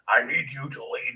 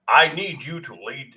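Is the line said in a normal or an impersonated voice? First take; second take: impersonated; normal. First: It is said in an imitated gruff voice. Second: It is said in the speaker's normal voice.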